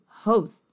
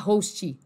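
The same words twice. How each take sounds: First: The final T is swallowed and barely heard. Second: A short vowel sound follows the final T. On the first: The speaker calls it right. "até mais comido que isso" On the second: The speaker calls it wrong. "não se fala host"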